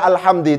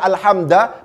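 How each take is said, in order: First: The word ends with an i vowel. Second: The word ends with an a vowel. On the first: The noun is in the genitive case. "tidak dibaca alhamdi" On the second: The noun is in the accusative case. "tidak dibaca alhamda"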